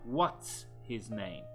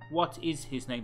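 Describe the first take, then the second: First: The words "what is" are joined as "what's". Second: The words "what is" are said separately. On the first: The speaker calls it right. "but what's his name? ... That is a more natural way" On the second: The speaker calls it wrong. "So not what is his name"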